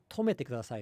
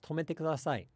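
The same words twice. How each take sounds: First: Tomete has a pitch drop inside it. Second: Tomete is said flat, with no drop. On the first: The speaker calls it wrong. "where it's not" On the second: The speaker calls it right.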